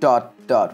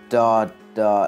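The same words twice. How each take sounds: First: The two words are said separately and choppily. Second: The first word fades smoothly into the second. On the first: The speaker calls it wrong. "we didn't want it to be like" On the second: The speaker calls it right. "it sort of fades into the next word"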